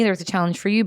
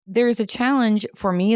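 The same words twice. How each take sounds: First: "you" stressed with a rise; "challenge for you" with "you" marked. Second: "me" stressed with a rise; "challenge for me" with "me" marked. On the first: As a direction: turn the weight onto "you" after "me". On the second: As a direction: lean on "me" to set it against "you". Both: Acted.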